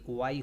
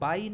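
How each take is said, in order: First: The word begins with a W sound. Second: The word begins with a B sound. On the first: The speaker calls it right. "बल्कि वाई होता है" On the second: The speaker calls it wrong. "इसको बाई नहीं"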